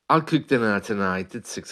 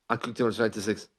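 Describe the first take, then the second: First: Fast, but each word stays clear and distinct. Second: Everything is rushed, so the words blur together. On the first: The speaker calls it right. "even as I say it faster, the words are still recognizable" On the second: The speaker calls it wrong. "That's just speeding up everything"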